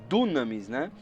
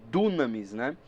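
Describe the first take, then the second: The two takes are said the same way.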